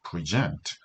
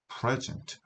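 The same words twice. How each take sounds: First: The stress is on the second syllable. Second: The stress is on the first syllable. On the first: It is the verb meaning to give. "동사일 때는 강세가 뒤에 있는 거예요" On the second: It is the noun meaning a gift. "명사일 때는 강세가 앞에 있고요"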